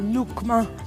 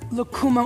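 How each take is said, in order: First: The word is said the way Peruvians say it. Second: The word is said the general, non-Peruvian way.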